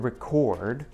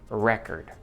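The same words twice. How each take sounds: First: The stress is on the second syllable. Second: The stress is on the first syllable. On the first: It is an action: to save sound or video. "Record is a verb" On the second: "When we stress the first part"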